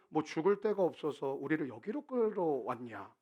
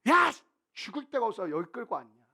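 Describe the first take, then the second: First: It is read in a calm, quiet voice. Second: It is shouted in an angry, loud voice.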